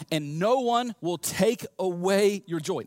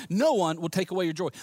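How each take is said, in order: First: Slow, spaced-out "no one will take away"; emphatic promise. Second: Said in the usual way. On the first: Acted. Jesus promising lasting joy, slow and emphatic.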